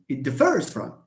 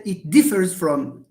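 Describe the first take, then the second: First: "differs" stressed on its last syllable; weak first syllable, strong FERS in "differs"; stress on second syllable. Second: "differs" stressed on DIF; stress on first syllable. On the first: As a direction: model "differs" as dif-FERS. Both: Shown as a demonstration. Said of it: "We do not say".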